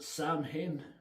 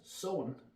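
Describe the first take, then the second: First: It is said as 'Sam' plus 'hain'. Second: It is said as 'sow' plus 'en'. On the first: This is how a character in the film said it. "as Loomis pronounced it" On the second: This is the actual pronunciation. "which is actually pronounced as"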